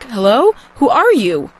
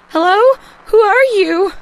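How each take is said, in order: First: It is said in a normal pitch. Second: It is said in a nervous, high voice.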